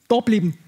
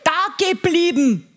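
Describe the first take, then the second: First: The phrase drops the ge- syllable entirely. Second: The phrase is said fully, keeping the ge- syllable.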